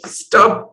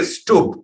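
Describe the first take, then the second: First: Stubb with a short u, as in tub; Indian pronunciation of Stubb. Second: Stubb with a long oo, as in tube; Finnish pronunciation of Stubb. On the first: Host showing the guest how India says his name, Stubb rhyming with tub. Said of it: "we'd say in India". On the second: Host trying the guest's own way of saying his name, Stubb with an oo. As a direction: say Stubb like "Stoob". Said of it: "closer to tube than to tub". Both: Shown as a demonstration.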